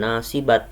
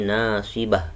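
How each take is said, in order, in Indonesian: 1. Kata ini berakhir dengan bunyi t. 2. Kata ini berakhir dengan bunyi h. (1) "bukan nasibat" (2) "tapi nasibah menjadi ha"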